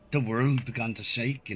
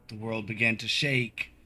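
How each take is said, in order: First: It is said in a Scottish accent. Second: It is said in a generic gnome voice. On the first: The speaker calls it right. "now that's a good Scottish accent" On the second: The speaker calls it wrong. "I'm totally doing the wrong voice for him"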